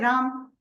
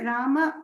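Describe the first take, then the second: First: The final vowel is dropped from the name. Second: The final vowel is clearly pronounced at the end. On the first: The speaker calls it wrong. "in the north of India, they'll say Ram, Sham. So the a will be cut off" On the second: The speaker calls it right. "we have to say Rama, Shama correctly"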